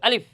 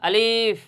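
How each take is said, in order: First: The word is said quickly and briefly. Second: The word is said slowly and drawn out. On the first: The speaker calls it right. "দ্রুত উচ্চারণ করতে হবে" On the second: The speaker calls it wrong. "অনেকে এই আলিফ শব্দটা এভাবে উচ্চারণ করে"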